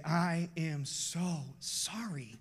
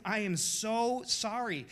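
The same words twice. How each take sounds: First: Put-on slow, heartfelt apology to his kids; father apologising to his children, slow and heartfelt. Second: Slow apology with a slight lift; husband apologising to his wife, slow. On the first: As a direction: say it slowly, like you mean it. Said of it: "grab my kids and say". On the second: Retold or imitated. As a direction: plead it gently to your wife. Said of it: "To my wife".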